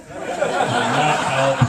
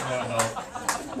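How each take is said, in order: First: Laughing. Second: Said in the usual way. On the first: Real, not acted. Laughing repeat of punchline.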